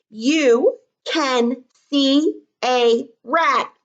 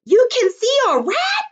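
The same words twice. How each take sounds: First: Slow dictation. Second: High, loud shriek of fright; high, loud scared yell at seeing a rat. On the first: Shown as a demonstration. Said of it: "I bet you I would be yelling it". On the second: Pretend. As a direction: shriek it as if you saw the rat. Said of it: "I would be yelling it".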